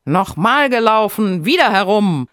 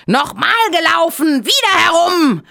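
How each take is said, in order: First: Higher, louder call to race again. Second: Much higher, louder enraged scream; furious scream. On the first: Hare calls for another run, loud. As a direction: demand a rematch, firm and loud. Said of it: "Er rief". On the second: Hare beside himself with rage, screaming. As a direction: lose it completely and shriek. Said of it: "ganz außer sich vor Ärger, schrie". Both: A narrator's reading.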